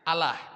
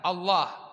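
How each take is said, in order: First: The L sound is light and thin. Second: The L sound is heavy and thick. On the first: This is how Christians say it. "Mereka menyebutnya" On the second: This is how Muslims say it. "kalau kita kan ditebalkan"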